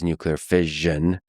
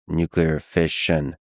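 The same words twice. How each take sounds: First: The middle consonant is voiced, as in vision. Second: The middle consonant is voiceless, as in mission. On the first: This is the usual American pronunciation. "the preferred pronunciation of the latter in U S is nuclear fission, like vision" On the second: This is the usual British and international pronunciation. "in the U K and other countries is nuclear fission, like mission"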